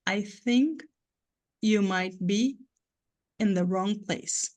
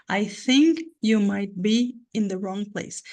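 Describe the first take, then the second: First: "I think", pause, "you might be" slowly, pause, "in the wrong place" slowly; three separate rhythmic chunks with pauses; slow, three blocks. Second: Whole sentence slow and even; slow demonstration. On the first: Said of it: "Eu tento falar aqui em câmera lenta". (em câmera lenta, três blocos) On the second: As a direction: stretch it out to show the rhythm. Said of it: "essa frase ficou quebrada em três lugares". (devagar, mostrando o ritmo) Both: Shown as a demonstration.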